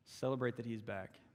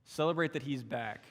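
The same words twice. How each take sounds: First: Much softer repeat, inward; softer echo. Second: Said in the usual way. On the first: Real, not acted. Preacher urging the church to rejoice, softly. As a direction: say it again quietly to sink in. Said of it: "quiet repeat of line 82". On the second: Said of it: "repeated for emphasis".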